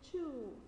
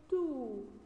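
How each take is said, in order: First: The word is said with an English-style t sound. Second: The word is said with an Arabic-style t sound. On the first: The speaker calls it right. "You should say two, like this" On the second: The speaker calls it wrong. "do not say 2. No, it's Arabic, not English"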